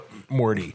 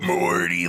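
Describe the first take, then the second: First: The word is spoken plainly, not burped. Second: The word is burped out.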